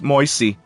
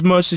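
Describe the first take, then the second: First: The word is said in a Jersey accent. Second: The word is said in a neutral accent.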